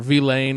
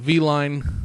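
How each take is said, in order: First: The vowel sounds like the word 'lane'. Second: The vowel sounds like the word 'line'. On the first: The speaker calls it right. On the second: The speaker calls it wrong.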